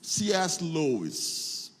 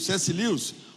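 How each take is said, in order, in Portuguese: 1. O nome é dito com sons ingleses. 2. O nome é dito com sons portugueses.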